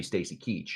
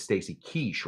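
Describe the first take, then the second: First: "Keach" with a hard ch at the end; "Stacy Keach" ending in a firm "tch". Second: "Keach" said as "Keesh", with sh for the ch; "Stacy Keach" ending in a soft "sh". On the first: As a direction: say "Keach" to rhyme with "beach". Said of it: "It has to be Stacy Keach". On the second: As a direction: say "Keach" to rhyme with "quiche". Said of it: "There's no way his name is". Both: Shown as a demonstration.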